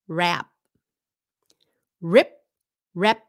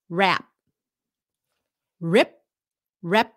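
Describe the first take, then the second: Both takes have the same delivery.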